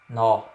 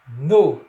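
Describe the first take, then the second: First: The vowel is said open. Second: The vowel is said closed. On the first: The speaker calls it wrong. "e não nó" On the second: The speaker calls it right. "noite é no"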